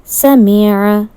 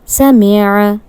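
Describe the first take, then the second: First: Every short vowel is kept short. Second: Every short vowel is kept short.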